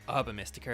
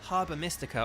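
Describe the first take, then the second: First: It is said in an American accent. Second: It is said in an English accent.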